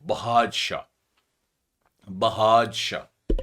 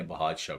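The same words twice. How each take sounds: First: بہاج شاہ drawn out, ba-haaj, then shah; code word shown slowly. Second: Said in the usual way. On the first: Shown as a demonstration. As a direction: present بہاج شاہ very slowly, in separate pieces. (بہاج شاہ کو کھینچ کر، ٹھہر ٹھہر کر) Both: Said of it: "بادشاہ کے وزن پہ ایک کوڈ بنا لیا".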